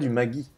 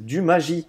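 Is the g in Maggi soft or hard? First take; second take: hard; soft. First: The g is hard, like in guitare. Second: The g is soft, like in magie. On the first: This is how younger people say it. "et pas du Magui" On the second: This is how people over sixty say it. "mes grands-parents disent du magie"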